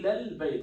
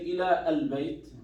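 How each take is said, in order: First: The words run together with no glottal stop. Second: A glottal stop separates the two words. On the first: The speaker calls it right. "You see" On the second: The speaker calls it wrong. "I didn't say"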